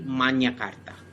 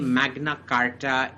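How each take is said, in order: First: The 'gn' is said like a 'ny' sound. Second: The 'gn' is said as a plain 'g' plus 'n'. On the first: This is the original Latin way of saying it. "in Latin is actually Magna Carta. The G N is like the Sanskrit na, nya" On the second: This is the English way of saying it. "what we say Magna Carta in English"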